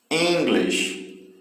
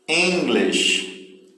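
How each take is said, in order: First: English, EN hit hard and the rest falling away; stress on EN. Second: English, with EN strong and lish light; first-syllable stress on English. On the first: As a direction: punch the start of English. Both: Shown as a demonstration. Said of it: "a sílaba que tem mais força aí é a primeira".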